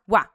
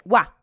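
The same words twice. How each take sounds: No difference in how they are said.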